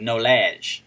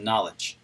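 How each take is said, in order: First: "knowledge" as "no-LAZH"; joke mispronunciation. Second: Said in the usual way. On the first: Shown as a demonstration. Streamer playing on viewer's word, "knowledge" said slowly as "no-lazh". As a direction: stretch "knowledge" into a mock-French "no-lazh".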